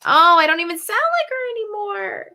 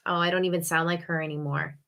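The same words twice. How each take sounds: First: Much higher, loud mock wail; high-pitched wail. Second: Said in the usual way. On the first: Lamenting a failed impression, high loud mock wail. Exaggerated repeat of own lament.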